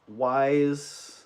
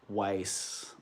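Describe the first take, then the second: First: The name sounds like the English word wise. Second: The name does not sound like the word wise. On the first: This is how the speaker has always said it. "I've always pronounced it wise" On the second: This is how many other people say it. "a lot of people I know pronounce it Weiss"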